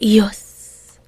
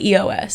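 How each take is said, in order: First: It is said as one single word. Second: Each letter is said separately, E-O-S. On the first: The name is treated as a word without periods. "But there's none, so I would say E O S" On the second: The name is treated as an abbreviation with periods. "If there were periods, I would call it E O S"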